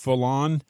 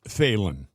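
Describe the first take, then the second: First: The first syllable sounds like 'fal'. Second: The first syllable sounds like 'feel'. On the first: The speaker calls it wrong. "pronounce it Fallon" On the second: The speaker calls it right. "but I think it's pronounced Phelan"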